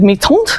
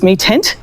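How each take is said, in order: First: The name is said with a more French sound. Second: The name is said with a less French sound. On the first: "because I think it sounds more French" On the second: "The internet told me it was"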